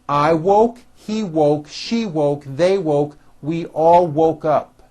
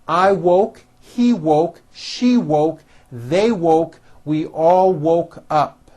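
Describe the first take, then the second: First: The list is said at a faster pace. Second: The list is said at a slower pace.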